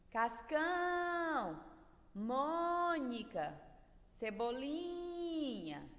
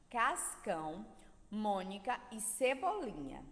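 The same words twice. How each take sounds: First: "Cascão", "Mônica", "Cebolinha" each sung out slowly with CÃO, MÔ, LI held long; calling out, stressed syllable stretched. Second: Said in the usual way. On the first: Shown as a demonstration. Teacher letting pupils find the sílaba tônica, stressed syllables drawn out. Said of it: "encontraram a sílaba tônica dessas palavras". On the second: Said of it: "leiam as três palavras abaixo".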